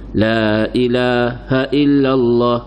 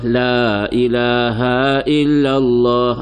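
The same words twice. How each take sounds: First: The vowel in 'ha' is kept short. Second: The vowel in 'ha' is drawn out long. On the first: The speaker calls it right. "tu baru betul" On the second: The speaker calls it wrong. "jangan tarik panjang. Ha, salah"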